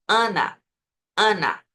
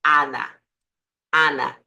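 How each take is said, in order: First: "Ana" with a nasal Portuguese A, sound through the nose. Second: "Ana" with a wide open oral A, no nasality; Spanish open a. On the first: Teacher demonstrating how Portuguese speakers say "Ana". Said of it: "En portugués decimos". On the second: Teacher contrasting the Spanish A in "Ana". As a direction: open the mouth for "Ana", sound from the mouth. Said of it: "Pero si dices en español". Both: Shown as a demonstration.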